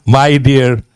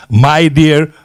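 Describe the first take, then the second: No difference in how they are said.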